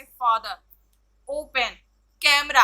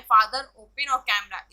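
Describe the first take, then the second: First: फादर, ओपन, कैमरा one by one, each stressed on its first syllable. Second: Said in the usual way. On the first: Shown as a demonstration. Teacher showing first-syllable stress to students, first syllables of फादर, ओपन, कैमरा stressed. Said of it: "stress डाला जा रहा है". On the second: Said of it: "जो भी यहाँ words दिए गए हैं".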